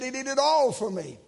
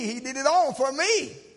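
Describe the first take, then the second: First: The stress falls on the word all. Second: The stress falls on the words for me. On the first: He did everything. "And he did do it all" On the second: He did it for me personally. "you can put emphasis on for me"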